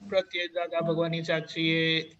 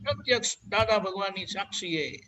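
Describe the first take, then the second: First: It is said flatly, without deep feeling. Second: It is said warmly, with deep heartfelt feeling. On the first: The speaker calls it wrong. "not like that" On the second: The speaker calls it right. "with full, uh, what do you say, that most hearty feelings"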